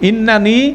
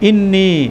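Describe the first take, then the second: First: The word is said in full with both n syllables. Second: The word is shortened with one n syllable dropped. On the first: "একটা হচ্ছে জেনারেল" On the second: "একটু এমফেসিসের সাথে বলা হচ্ছে, তাড়াতাড়ি বলা হচ্ছে, সেজন্য একটা নুন ড্রপ হয়ে যাচ্ছে"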